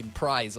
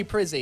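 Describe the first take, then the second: First: "Prize" as one syllable with a long i; Prize pronunciation. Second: "Prizzi" in two syllables, ending in ee; Prizzi pronunciation. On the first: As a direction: say "Prize" to rhyme with eyes. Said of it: "It's probably Prize or something". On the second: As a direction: say "Prizzi" as PRIZ-ee. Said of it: "remind me how to pronounce". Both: Shown as a demonstration.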